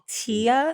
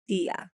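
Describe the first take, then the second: First: It is said with an English accent. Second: It is said with a Spanish accent. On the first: The speaker calls it wrong. "It's not" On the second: The speaker calls it right. "if you want to say it with the accent, it's more like a th-"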